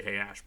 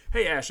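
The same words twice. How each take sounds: First: Said in the usual way. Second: Loud, high, bright hail across the room; exclaimed Hey Ash, loud and high; exclaimed greeting. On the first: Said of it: "You could just say". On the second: Acted. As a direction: call out Hey Ash with a burst. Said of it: "exclaimed Tracy".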